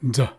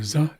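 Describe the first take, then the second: First: It is a d sound joined to z. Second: It is a plain z sound. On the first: The speaker calls it right. "like a D and a Z together" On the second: The speaker calls it wrong. "instead of a Z"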